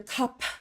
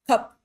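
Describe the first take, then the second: First: The final consonant is released with air. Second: The final consonant is cut off without air. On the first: It marks a non-native speaker. The speaker calls it wrong. "real indicators that this is a non-native speaker" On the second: It sounds native in Central dialect. The speaker calls it right. "the syllable is shut down. There is no more air coming out of your mouth"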